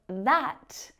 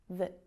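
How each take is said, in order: First: The word has a full, clear vowel. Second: The word has a reduced schwa vowel. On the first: "instead of that" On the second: "that vowel sound softens and it reduces to the schwa sound"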